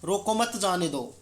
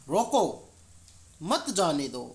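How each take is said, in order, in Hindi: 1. इसे बिना किसी ठहराव के बोला गया है। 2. रोको के बाद ठहराव है। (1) "सामान्य पहले वाक्य में आप देखते हैं कि अर्थ स्पष्ट नहीं होता" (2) "दूसरे वाक्य में रोको के बाद अल्प विराम"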